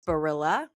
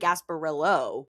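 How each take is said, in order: First: The name ends with an 'ah' vowel. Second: The name ends with an 'oh' vowel. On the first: "Is it Gasparilla?" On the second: "You keep saying Gasparillo"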